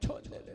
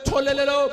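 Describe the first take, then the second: First: It is said softly, without calling out. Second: It is called out loudly, like a street vendor. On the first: Nobody would come out to buy. "अपनी voice को अगर ऐसे करे" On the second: It is meant to draw buyers outside. "जोर जोर से बोलता है"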